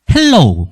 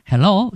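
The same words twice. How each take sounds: First: "헬로우" with a Gyeongsang lilt, the last syllable drawn out as "로우"; Gyeongsang-accented hello. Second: "헬로" short and clean, the end not stretched; correct native hello. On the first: Retold or imitated. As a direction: say "헬로우" the way kids from Gyeongsang would, stretching the end into "로우". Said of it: "경상도식 영어를 하더라고요". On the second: Shown as a demonstration. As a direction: say "헬로" crisply, like the native speaker on the program. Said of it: "헬로우가 아니고 헬로 이런데".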